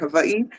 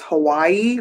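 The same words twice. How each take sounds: First: It is said the local island way. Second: It is said the usual mainland American way. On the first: This is how people from there say it. "but we say Hawaii" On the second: This is how outsiders say it. "what y'all would say is Hawaii"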